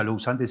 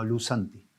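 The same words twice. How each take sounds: First: "lou santi" said as written, with a separate o and u; the written form, not how it sounds; spelled-out reading. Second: "lusanti" run together as lu-santi, with no o; how it is really pronounced; correct pronunciation. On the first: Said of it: "no se pronuncia lou santi". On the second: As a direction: say "lusanti" smoothly, in one flowing word. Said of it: "sino lusanti". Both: Shown as a demonstration.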